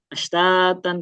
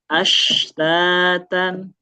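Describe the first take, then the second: First: The word is said too quickly. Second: The word is said more slowly, sound spread. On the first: The speaker calls it wrong. "jangan terlalu cepat, jangan ashtatan" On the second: The speaker calls it right. "tapi ashtatan"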